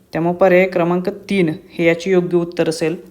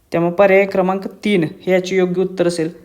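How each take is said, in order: The two takes are said the same way.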